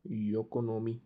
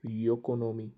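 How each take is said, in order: Both takes have the same delivery.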